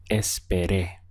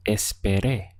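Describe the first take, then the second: First: Esperé with the final é stressed. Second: Esperé with the weight on the last syllable, É; stress on final E. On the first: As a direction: hit the last syllable, espeRÉ. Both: Shown as a demonstration. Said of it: "stress this final accent here over the E".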